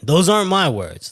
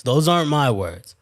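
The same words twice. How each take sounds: First: "Those aren't my words" with a firm, punched "aren't"; emphatic denial. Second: Said in the usual way. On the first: Real, not acted. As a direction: insist it wasn't you who said it. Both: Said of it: "that's what she thinks".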